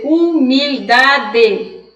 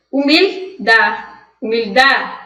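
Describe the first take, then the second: First: HUMILDADE said "u-mil-da-de", full last syllable; strong final D. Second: HUMILDADE said "umil-DÁ", final D nearly silent; firm stress on DA, let the last D vanish; soft final D. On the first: Teacher showing students what not to say, strong D. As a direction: drag out humildade to a hard final "de". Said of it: "Eu não vou dizer humildade". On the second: Teacher showing correct Spanish humildad, soft final D. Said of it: "eu não vou dizer o D de forma forte". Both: Shown as a demonstration.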